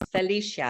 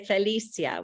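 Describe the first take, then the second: First: The name is pronounced the English way. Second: The name is pronounced the Spanish way. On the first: "I think, in, in English" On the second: "which is a Spanish pronunciation"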